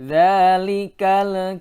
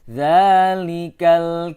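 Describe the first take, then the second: First: The L sound is bounced with a small release. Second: The L sound is held clear without bouncing. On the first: The speaker calls it wrong. "tidak boleh dzalikal kita. Lamnya terpantul di situ" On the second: The speaker calls it right. "Lamnya harus dibaca jelas dan tidak boleh terpantul"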